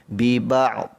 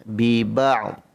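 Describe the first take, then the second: No difference in how they are said.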